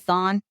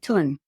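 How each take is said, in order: First: It starts with a th sound. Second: It starts with a plain t sound. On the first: This is how English speakers read it. The speaker calls it wrong. "we would say Thon" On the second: This is how locals say it. The speaker calls it right. "but they would say Tun, even though it's H O N"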